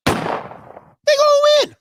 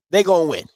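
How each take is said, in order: First: "They gonna win" squealed up high and slow; high stretched squeal. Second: Said in the usual way. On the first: Real, not acted. Repeats the line, then much higher.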